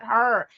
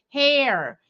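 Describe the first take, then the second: First: The word is said with an 'er' vowel. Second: The word is said with an 'air' vowel. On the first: The speaker calls it wrong. "not her" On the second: The speaker calls it right. "hair, not her"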